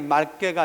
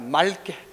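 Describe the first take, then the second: First: The cluster is said with a k sound. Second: The cluster is said with an l sound. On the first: The speaker calls it wrong. "맑게가 아니라" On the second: The speaker calls it right. "맑게라고 발음해야 된다"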